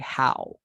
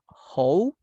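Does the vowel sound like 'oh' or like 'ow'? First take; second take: ow; oh. First: The vowel sounds like ow. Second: The vowel sounds like oh. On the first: The speaker calls it right. "So we say how, like vaca, cow" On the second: The speaker calls it wrong. "we don't say ho because that is like something not good"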